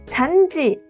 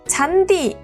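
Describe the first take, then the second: First: The consonant before the vowel is a j sound. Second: The consonant before the vowel is a plain d. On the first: The speaker calls it wrong. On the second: The speaker calls it right.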